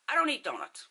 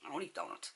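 First: High, emphatic retold reply; acted emphatic reply. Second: Low, soft throwaway aside; understated, lower-pitched disclaimer; offhand aside. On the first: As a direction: start high on "don't" and drop away. Her own reply at the counter. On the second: Retold or imitated. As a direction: drop it down quietly as an afterthought. Muttered aside after the retold order.

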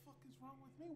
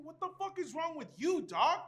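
First: Much softer, higher incredulous echo. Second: Higher, punchy comeback landing hard on YOU; angry retort. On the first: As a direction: throw the question back under the breath. Throws the question back, incredulous. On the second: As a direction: fire the question back, loud by the end. Turns the question back angrily. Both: Acted.

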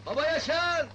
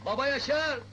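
First: Louder repeated call. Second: Calling out. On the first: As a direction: shout his name again, louder. Calling again, louder. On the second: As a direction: call his name loudly. Calling someone from outside. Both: Acted.

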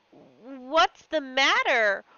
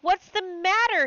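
First: Slow, anxious "What's the matter?" with a fall on "matter"; worried question. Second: Higher and louder "What's the matter?", falling on "matter"; alarmed cry. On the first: Husband seeing his wife weep, slow and anxious. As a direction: ask it slowly, worried. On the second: Husband alarmed by his weeping wife, crying out. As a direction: repeat it in rising alarm. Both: Acted. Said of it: "he stuttered".

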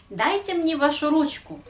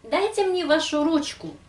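No difference in how they are said.

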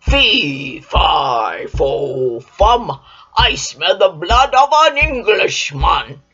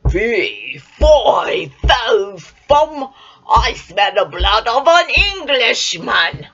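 First: Loud, lower booming giant voice; thundering giant. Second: Loud booming giant chant; giant's roar. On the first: Giant sniffing for Jack again, loud and booming. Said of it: "he thundered". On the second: Giant sniffing out Jack, loud bellowing chant. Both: Acted.

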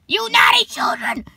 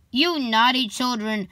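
First: Put-on high, harsh shriek at naughty children; yelled scolding. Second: Said in the usual way. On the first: A narrator's reading. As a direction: shriek it like an angry witch. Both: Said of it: "she yelled at them".

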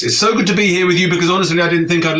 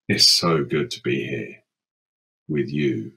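First: Quick and bright. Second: Low and quiet. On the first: Refrain, quick upbeat take. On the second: Refrain, ghostly low take. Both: Acted.

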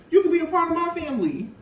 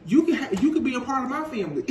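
First: Higher, faster, pushed repeat; emphatic mock repeat. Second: Fast, laughing through a man's words; laughing mock quote. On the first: The same offer repeated to his partner, higher and faster. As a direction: hammer his offer home again. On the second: A boyfriend making his offer to his partner, fast and laughing. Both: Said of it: "This man is like".

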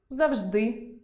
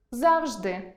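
First: Завжди stressed on the final и, завжди́, rising; stress on the last syllable. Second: Завжди stressed on а, за́вжди; stress on the first syllable. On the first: Teacher giving the variant завжди́. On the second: Teacher demonstrating за́вжди as a variant. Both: Shown as a demonstration. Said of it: "Наприклад".

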